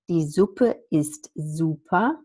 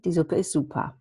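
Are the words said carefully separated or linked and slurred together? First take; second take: careful; linked. First: Each sound is pronounced separately and carefully. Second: The sounds are linked and slurred together. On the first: The speaker calls it wrong. "which nobody says" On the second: The speaker calls it right. "which people would say"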